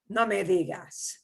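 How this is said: It is said in a disgusted tone. The news is unpleasant to hear. "like you're disgusted"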